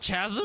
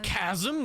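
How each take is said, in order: First: The word begins with a ch sound. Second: The word begins with a hard k sound. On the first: The speaker calls it wrong. "My whole life I've been saying it wrong" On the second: The speaker calls it right. "Like chaos?"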